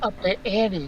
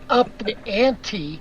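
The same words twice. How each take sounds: First: The T sound in 'ante' is dropped. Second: The T sound in 'ante' is pronounced. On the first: "I did leave out the T" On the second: "Jay said up the ante"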